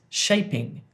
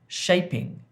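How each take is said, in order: No difference in how they are said.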